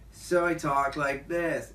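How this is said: A chilled-out skater dude's voice, drawn out.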